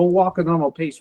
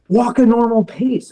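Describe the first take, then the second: First: Said in the usual way. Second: Raised, insistent retold order; higher-pitched mock scolding; doctor's reprimand. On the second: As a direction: mimic a doctor telling off a patient.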